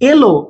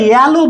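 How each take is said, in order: First: The first vowel sounds like 'e' in bed. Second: The first vowel sounds like 'a' in cat. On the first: The speaker calls it right. "এর উচ্চারণটা কি এর মতোই হচ্ছে" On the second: The speaker calls it wrong. "এখানে কিন্তু আমরা ইয়ালো বলি না"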